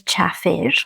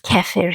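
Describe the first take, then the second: First: It is said the home-language way. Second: It is said the usual local way. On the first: This is how the speaker's community names it. "but we say chafir" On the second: This is how people here name it. "It is known as kefir here"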